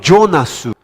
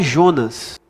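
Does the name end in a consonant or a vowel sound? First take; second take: vowel; consonant. First: The name ends with an added u vowel. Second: The name ends on a final s sound. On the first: This is the Japanese form of the name. "Meu nome no Japão é Jonasu" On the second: This is the Portuguese form of the name. "O meu nome no Japão não é Jonas"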